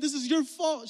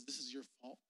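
First: High, loud accusation; acted angry blame. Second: Low, very soft accusation; hushed blame. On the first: Grandmother blaming mom for her sister's death, loud and angry. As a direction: throw the blame hard, pitched up high. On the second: Acted. Grandmother pinning grandfather's death on mom, low and quiet.

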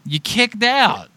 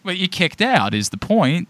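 First: "You kicked out" drawn out slowly, higher, every word pressed; emphatic repeat. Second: Said in the usual way. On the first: Real, not acted. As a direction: hammer home "kicked out".

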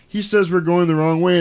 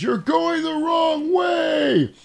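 First: Said in the usual way. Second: High, drawn-out shout at no extra volume; imitated distant yell. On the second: Couple warn the other car through the window, drawn-out yell. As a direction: stretch it out high, as if calling between cars. Yelled between cars, window down.

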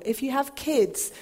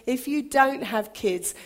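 First: Put-on kids stressed with a falling tune. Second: "dont" stressed with a falling tune; stress on don't. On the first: Pastor contrasting parents, kids stressed. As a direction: lean on "kids". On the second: Pastor contrasting non-parents, don't stressed. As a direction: hit the word "dont". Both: Shown as a demonstration.

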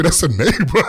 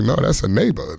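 First: Higher, rising, teasing lift on "neighbor"; punchline lift. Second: Said in the usual way. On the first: Retold or imitated. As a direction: land "neighbor" as a playful hook.

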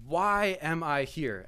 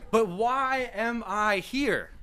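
First: Said in the usual way. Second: Drawn-out, high wail of a question; mock exasperation. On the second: Guest to himself in the strange house, mock exasperation. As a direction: stretch every word out high in exasperation.

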